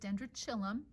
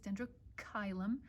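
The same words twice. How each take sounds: First: The middle consonant is a 'ch' sound. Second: The middle consonant is a 'k' sound. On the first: The speaker calls it wrong. "many people pronounce this" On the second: The speaker calls it right. "that C H in the middle of the word is a K and not a Ch"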